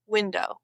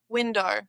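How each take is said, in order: First: Said in the usual way. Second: "window" ending in "dor"; Aussie "win-dor" for "window"; R added. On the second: Shown as a demonstration. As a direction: turn the O of "window" into "or". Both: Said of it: "O adds an R".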